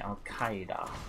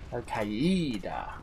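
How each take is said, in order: First: The stress falls on the first syllable of Qaeda. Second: The stress falls on the second syllable, the E. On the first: This is how people say it now. "and now they all say" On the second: This is the older way people said it. "they used to be Al Qaeda, with the um, focus on the E"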